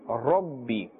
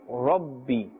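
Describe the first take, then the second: First: The r is said with a full mouth. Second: The same.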